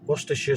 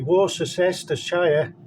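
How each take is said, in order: First: It is said the way British speakers say it. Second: It is said the way American speakers say it. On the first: The speaker calls it right. "have trouble saying Worcestershire sauce" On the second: The speaker calls it wrong. "They say Worcestershire and all that"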